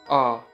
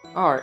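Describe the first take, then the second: First: The letter R is said in a British accent. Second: The letter R is said in an American accent.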